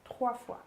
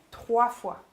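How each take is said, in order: First: "Trois fois" softer, after a pause; repeated for emphasis. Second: "trois fois" in two separate beats; emphatic. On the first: Coach repeating her point, "Trois fois" quiet and deliberate. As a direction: echo "Trois fois" softly and let it sink in. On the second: Coach stressing the repetition, "trois fois" emphatic. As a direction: set "trois fois" apart, word by word. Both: Shown as a demonstration. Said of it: "je vais répéter trois fois".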